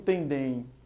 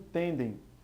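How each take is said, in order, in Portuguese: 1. A tônica está na última sílaba. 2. A tônica está na primeira sílaba. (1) "Eu não digo tendem" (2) "a pronúncia mais forte fica na sílaba tem e não em dem"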